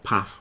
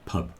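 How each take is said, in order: First: The word ends with an f sound. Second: The word ends with a b sound. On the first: The speaker calls it wrong. "Not puff" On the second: The speaker calls it right. "So the word is pub"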